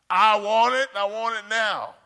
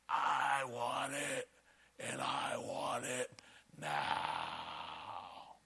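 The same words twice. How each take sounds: First: It is said loudly and demandingly. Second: It is said quietly and weakly.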